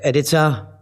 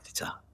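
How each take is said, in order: First: The word is said big and loud. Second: The word is said casually, tossed off. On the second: "thrown away"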